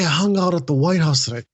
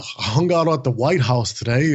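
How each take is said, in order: First: It sounds genuinely excited and warm. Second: It sounds boastful and superior. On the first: The speaker shares real joy without belittling anyone. The speaker calls it right. "when you share, like, hey" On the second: The speaker acts like an expert above others. The speaker calls it wrong. "like that kind of way, it makes people feel small"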